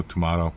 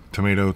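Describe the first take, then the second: First: Tomato said "to-MAH-to"; broad A pronunciation. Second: Tomato said "to-MAY-to"; long A pronunciation. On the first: Showing either way is fine, tomato as "to-MAH-to". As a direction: say tomato with an "ah" in the middle. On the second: Showing either way is fine, tomato as "to-MAY-to". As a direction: say tomato with an "ay" in the middle. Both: Shown as a demonstration. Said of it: "depending on how you wanna pronounce it".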